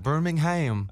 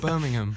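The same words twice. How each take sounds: First: It is said in an American accent. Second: It is said in an English accent.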